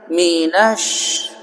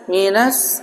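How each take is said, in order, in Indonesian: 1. Kata ini berakhir dengan bunyi 'sh' yang lembut. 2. Kata ini berakhir dengan bunyi 's' yang tajam. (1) "bahasanya itu seperti ngusir ayam. Minash gitu" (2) "Minas minas itu salah. Jangan minas jadi s"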